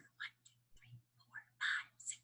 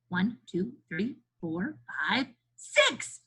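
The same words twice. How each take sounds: First: It is counted in a whisper. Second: It is counted in a normal voice.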